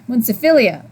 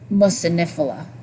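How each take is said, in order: First: The word begins with 'mun-ci' and ends '-philia'. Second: The word begins with 'mu-ci' and ends '-phila'. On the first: The speaker calls it wrong. "I think I've been saying it wrong for months. I kept saying" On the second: The speaker calls it right. "I'm not used to saying it like that"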